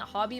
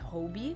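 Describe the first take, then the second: First: The first vowel is short, as in hot. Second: The first vowel is long, as in hope. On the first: The speaker calls it wrong. "I've been saying it Hobby my whole life, ... I was saying it wrong" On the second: The speaker calls it right. "it's supposed to be Hobie"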